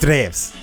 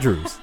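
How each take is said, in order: First: The W is said as a v sound. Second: The W is said as an English w sound. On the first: The speaker calls it right. "It's Drews" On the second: The speaker calls it wrong. "But it's not Drews"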